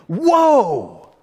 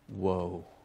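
First: The exclamation sounds amazed and admiring. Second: The exclamation sounds dismayed and cautionary. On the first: The life is a good example to admire. "your life is either a witness" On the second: The life is a warning to avoid. "or a warning"

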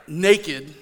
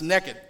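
First: It is said in a careful standard pronunciation. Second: It is said in a regional home pronunciation. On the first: This is the proper pronunciation. "I have to stop and make myself pronounce that" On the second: This is how people say it back home. "back where I grew up, it's naked"

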